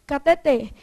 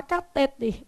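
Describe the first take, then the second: First: "cateter" stressed on the last syllable TER; correct stress. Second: "catéter" stressed on the middle syllable TÉ; wrong stress. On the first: Teacher giving the correct form, "cateter" stressed at the end. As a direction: land on the final TER of "cateter". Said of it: "mas o certo é". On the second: Teacher quoting how doctors say it, "catéter" stressed on TÉ. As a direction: hit TÉ in "catéter". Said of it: "é um deslocamento da sílaba". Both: Shown as a demonstration.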